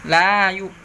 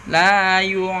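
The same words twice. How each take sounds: Both takes have the same delivery.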